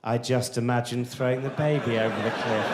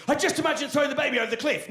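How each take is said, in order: First: Low, measured, calmly menacing; sinister relish. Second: High, fast, alarmed blurt; horrified realisation. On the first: Would-be killer musing about the baby, sinister. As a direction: savour it darkly, low and even. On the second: Parent confessing an unwanted thought, alarmed. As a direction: blurt it out, shocked at your own thought. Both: Shown as a demonstration. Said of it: "Very different thought, right?".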